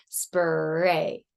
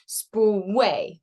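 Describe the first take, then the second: First: Said in the usual way. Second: Spray said as spway, R glided into a W. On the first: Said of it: "instead of spray". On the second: Shown as a demonstration. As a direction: say Spray with a W in place of the R. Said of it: "the child is gonna wanna say".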